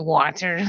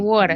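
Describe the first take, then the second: First: The word is said in an effortful, over-careful way. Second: The word is said in a relaxed local accent. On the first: This is how people from the speaker's home do not say it. "we don't say water. Like it's too much work" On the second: This is how people from the speaker's home say it. "we say"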